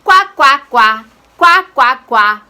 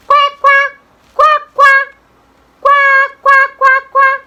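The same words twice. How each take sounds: First: Loud, low-pitched duck quacks; short, punchy, deeper quacking. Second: Put-on high, loud girlish quacking; short, high-pitched, loud duck quacks. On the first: Shown as a demonstration. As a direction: quack loudly in the teacher's lower voice. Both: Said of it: "the duck says".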